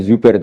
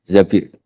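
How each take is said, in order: First: "Zubair" pronounced Zu-ba-ir, the mistaken reading; wrong reading Zubair. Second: "Zabir" drawn out, ending in a long i; correct reading Zabir. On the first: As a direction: say "Zubair" with a u first, then "air". (ucapkan "Zubair" dengan bunyi u di suku pertama) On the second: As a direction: say "Zabir" slowly as Za-bir, a in the first syllable. (ucapkan "Zabir" pelan, Za-bir, dengan bunyi a lalu i) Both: Shown as a demonstration. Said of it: "bukan bacanya bukan Zubair, tapi Zabir".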